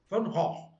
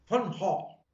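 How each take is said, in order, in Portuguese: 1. O nome é dito do jeito holandês. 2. O nome é dito do jeito holandês.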